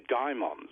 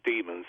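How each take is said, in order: First: It is said in the older, less common way. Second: It is said in the modern, common way. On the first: "were duped by daimons" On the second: "as we, most people pronounce it today"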